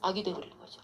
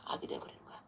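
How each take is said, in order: First: Said in the usual way. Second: Whispered repeat, "악이" barely breathed. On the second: Shown as a demonstration. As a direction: whisper "악이 돼버리는 거야" with no voice.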